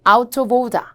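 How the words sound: It is said in a British accent.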